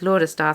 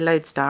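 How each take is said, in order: First: It is pronounced with a German-sounding accent. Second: It is pronounced with a plain English sound. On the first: The speaker calls it wrong. "mispronounced as Lodestar through the whole thing" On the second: The speaker calls it right. "that makes so much more sense"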